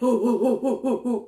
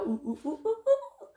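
First: The voice is deep and loud. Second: The voice is high and light. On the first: This is how the monkeys sound. The speaker calls it right. "They're loud, like" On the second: This is not how the monkeys sound. The speaker calls it wrong. "howler monkeys don't make the sound you would think. They don't go"

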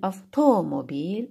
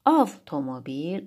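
First: The stress is on the second syllable. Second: The stress is on the first syllable.

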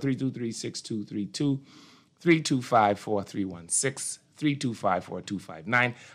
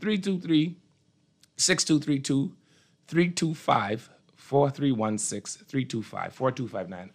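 First: The number is said at a faster pace. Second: The number is said at a slower pace.

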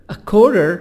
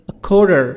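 Both takes have the same delivery.

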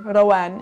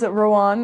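First: The name is said with Arabic sounds. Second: The name is said with English sounds.

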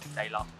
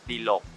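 First: The first syllable sounds like 'dai'. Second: The first syllable sounds like 'dee'. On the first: This is what people commonly call the shop. The speaker calls it wrong. "น้องๆชอบเรียกไดล็อก" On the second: This is the shop's actual name. The speaker calls it right. "แต่จริงๆก็ชื่อร้านดีล็อกฟังกันชัดนะ"

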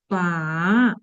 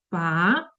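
First: The pitch dips low, then rises. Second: The pitch rises toward the end. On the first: "третій тон" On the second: "Другий тон, коли ми нібито запитуємо"

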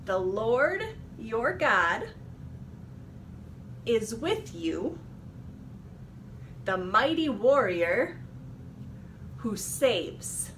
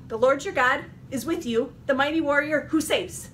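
First: It is said at a normal speed. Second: It is said quickly.

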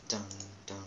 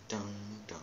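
Both takes have the same delivery.

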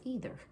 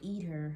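First: The word is said as standard 'either'. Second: The word sounds like 'eat her'. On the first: This is the proper way to say it. The speaker calls it right. "No, don't say that. It's either" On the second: This is how a small child said it. The speaker calls it wrong. "My little baby cousin used to say"

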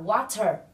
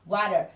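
First: The middle consonant is a crisp T sound. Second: The middle consonant is a soft D-like flap. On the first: "Cách phát âm của anh sẽ là water" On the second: "cách phát âm của anh Mỹ có thể lướt âm T ở giữa nghe na ná âm D"

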